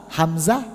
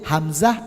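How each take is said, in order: The two takes are said the same way.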